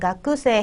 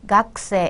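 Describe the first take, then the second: First: The vowel after the k is fully pronounced. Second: The vowel after the k is dropped. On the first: "크라고 쓰였으니까 가크세 해야 될 것 같은데" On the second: "각세 각세 이렇게 발음하는 거"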